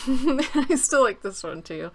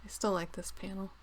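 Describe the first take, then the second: First: Louder, higher, slower, stressing still; emphatic. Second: Said in the usual way. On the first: Real, not acted. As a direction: lean hard on still with delight. Repeats phrase louder, slower.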